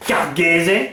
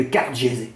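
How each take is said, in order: First: "Cargese" with a hard g, like Car-gué-zé; hard-g pronunciation. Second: "Cargese" with a soft g, like Car-jé-zé; soft-g pronunciation. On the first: Vlogger repeating the Corsican place name, "Cargese" said Car-gué-zé. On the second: Vlogger naming where he got sunburnt, "Cargese" said Car-jé-zé. Says place name with soft g. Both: Shown as a demonstration.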